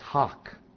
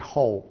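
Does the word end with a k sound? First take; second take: Yes; No. First: The word ends with a clear k sound. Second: The word ends on an open vowel, with no k. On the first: This is how some other people pronounce it. "some people say it's hawk" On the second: This is the speaker's own pronunciation. "I say ho"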